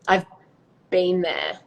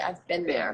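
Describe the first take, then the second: First: It is said in an Australian accent. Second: It is said in an American accent. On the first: "in an Australian accent, you'd say" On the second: "But in American, you'd say"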